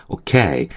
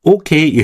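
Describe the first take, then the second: First: "오케이" as o-KAY, the end drawn out; "오케이" lower, with a long falling KAY; stress on second syllable. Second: "오케이" as a high Korean-style OH-kei; wrong front stress. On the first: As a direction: lean slowly on the back of "오케이". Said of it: "액센트가 실제로 그 뒤쪽에 있어요". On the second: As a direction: punch the front of "오케이", pitched up. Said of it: "그게 아니라 오케이". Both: Shown as a demonstration.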